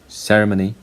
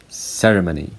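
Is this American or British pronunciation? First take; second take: British; British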